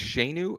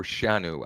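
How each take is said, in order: First: "Shanu" said as SHAY-noo; first vowel as "ay". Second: "Shanu" said as SHAH-noo; first vowel as "ah". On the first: Host unsure of a user's name, "Shanu" said SHAY-noo. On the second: Host offering the other reading of a name, "Shanu" said SHAH-noo. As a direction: say "Shanu" with an open "ah" in the first syllable. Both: Shown as a demonstration. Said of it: "I don't know if it's Shanu or Shanu".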